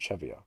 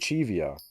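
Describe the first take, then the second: First: The first vowel is a short 'e' sound. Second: The first vowel is a long 'ee' sound. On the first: The speaker calls it right. "I should pronounce it Chevio, because it's only one E" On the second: The speaker calls it wrong. "I could I say Chivio, ... Chivio implies two E's"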